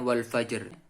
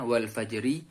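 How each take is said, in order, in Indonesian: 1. Kata ini berakhir pada konsonan tanpa vokal. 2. Kata ini berakhir dengan vokal i pendek. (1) "cara membacanya"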